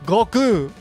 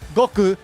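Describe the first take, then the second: First: The final vowel is held long. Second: The final vowel is short. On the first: The speaker calls it right. "This ku, just like boru, is a long vowel" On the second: The speaker calls it wrong. "it's not Goku"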